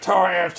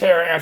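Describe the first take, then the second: First: The first part sounds like one syllable, 'tar'. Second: The first part sounds like two syllables, 'terra'. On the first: "it's pronounced tar amps" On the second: "not Terra amps"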